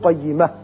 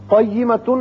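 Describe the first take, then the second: First: The word ends short on a silent final consonant. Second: The word ends with a nasal 'un' sound. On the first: "تا کو ساکن کر کے پڑھیں گے" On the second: "قیمتن ہے"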